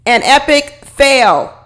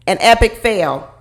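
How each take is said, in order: First: Drawn out, stressing epic fail; slow emphatic. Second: Said in the usual way. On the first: Shown as a demonstration. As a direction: lean on each word slowly.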